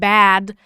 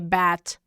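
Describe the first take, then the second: First: The final consonant is voiced. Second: The final consonant is voiceless. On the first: "like the word bad" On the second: "Final consonants that constantly get devoiced"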